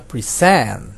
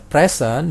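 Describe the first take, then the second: First: The stress is on the last syllable. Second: The stress is on the first syllable. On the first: It is a verb. "di sini ada present" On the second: It is a noun. "kalau tadi ada present"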